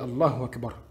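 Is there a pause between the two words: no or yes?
no. The two words run together without a gap. The speaker calls it right. "On dit Allahu Akbar. Normal"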